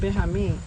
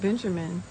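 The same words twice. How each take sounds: First: The name is said with a foreign-sounding pronunciation. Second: The name is said with ordinary English pronunciation. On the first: Other people said the name their own way. "they used to call him Benjamin" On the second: This is the name as it is normally said. "this guy named Benjamin"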